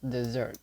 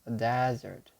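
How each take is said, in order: First: It is said the way the verb sounds. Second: It is said the way the noun sounds. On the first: It means to abandon someone. "the verb is pronounced desert" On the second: It names a dry sandy place. "The noun is pronounced desert"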